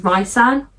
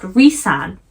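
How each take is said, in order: First: "Rysand" with a first syllable like "rye"; pronounced Rye-sand. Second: "Rhysand" with a first syllable like "ree"; pronounced Ree-sand. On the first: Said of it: "it is not pronounced Rysand". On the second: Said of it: "apparently it's pronounced Rhysand". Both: Shown as a demonstration.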